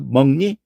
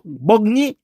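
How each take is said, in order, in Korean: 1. 첫 음절은 ng 소리로 끝나요. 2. 첫 음절은 파열음으로 끝나요. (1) "이응이 돼버리고 말아요" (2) "먹 이렇게 목이 탁 걸리게 말을 안 해요... 이렇게 발음 안 해요"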